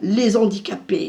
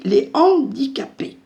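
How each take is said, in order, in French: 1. Un son [z] fait la liaison entre les et handicapés. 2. Aucun son [z] ne fait la liaison entre les et handicapés. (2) "on ne fait pas de liaison"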